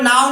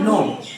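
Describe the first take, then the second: First: The vowel sounds like the word 'now'. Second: The vowel sounds like the word 'no'. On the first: The speaker calls it wrong. "इसको नाउ नहीं पढ़ना है" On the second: The speaker calls it right. "क्या पढ़ना है नो"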